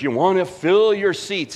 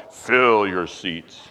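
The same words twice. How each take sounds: First: Said in the usual way. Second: Much lower, slow, mocking ad voice; mock slogan voice. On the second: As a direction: drag out the slogan like a cheesy ad. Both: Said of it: "It says it right on the headline".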